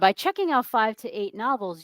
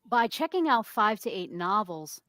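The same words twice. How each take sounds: First: The phrase is said in a positive tone. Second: The phrase is said in a negative tone. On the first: The habit sounds like a good thing. The speaker calls it right. "You would say" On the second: The habit sounds like a bad thing. The speaker calls it wrong. "you wouldn't say it with such a negative connotation"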